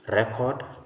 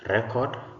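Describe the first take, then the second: Both takes have the same delivery.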